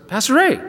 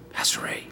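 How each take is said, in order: First: Called out higher, surprised; surprised hairdresser greeting him by name. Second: Soft unvoiced whisper of his name. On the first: Retold or imitated. Hairdresser spotting the pastor unexpectedly, surprised call. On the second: Hairdresser whispering to the pastor about the widow, hushed whisper. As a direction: whisper so the widow can't hear.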